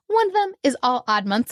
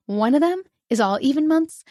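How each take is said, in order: First: "odd" answers "even" with a push; stress on odd. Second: "even" lifted against "odd"; stress on even. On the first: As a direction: land the contrast on "odd". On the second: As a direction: set up the contrast by leaning on "even". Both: Shown as a demonstration. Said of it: "contrast even and odd months".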